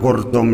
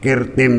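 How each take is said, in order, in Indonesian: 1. Kata itu diucapkan dengan vokal u. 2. Kata itu diucapkan dengan vokal i. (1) "ya kena" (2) "ya kena"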